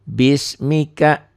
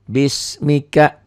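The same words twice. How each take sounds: No difference in how they are said.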